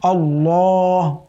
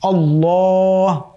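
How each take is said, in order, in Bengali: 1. L উচ্চারণ করা হয় মোটা ও ভরাট। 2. L উচ্চারণ করা হয় মোটা ও ভরাট।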